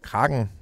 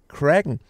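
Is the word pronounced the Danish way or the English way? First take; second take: Danish; English. First: The word is pronounced with Danish sounds. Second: The word is pronounced with English sounds.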